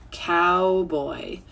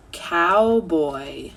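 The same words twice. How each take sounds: The two takes are said the same way.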